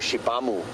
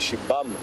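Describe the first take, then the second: First: The word ends with an audible final vowel. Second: The word ends without a final vowel sound. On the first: The speaker calls it wrong. "a lot of people go Shibamu" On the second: The speaker calls it right. "it's more a silent U at the end"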